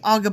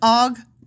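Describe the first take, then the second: First: The two words blur together into one word. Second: The two words are kept clearly separate. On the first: The speaker calls it wrong. "You always say Og of Bashan, like Aga" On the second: The speaker calls it right. "It's Og of"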